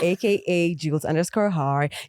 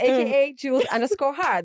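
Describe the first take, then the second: First: The voice is lowered and deeper than usual. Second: The voice is at its usual natural pitch.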